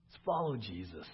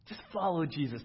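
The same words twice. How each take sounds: First: Said in the usual way. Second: "follow" pressed, louder and higher on the repeat; stress on follow. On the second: Shown as a demonstration. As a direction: hit "follow" harder the second time. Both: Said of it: "repeated louder".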